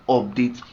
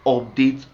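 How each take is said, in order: Both takes have the same delivery.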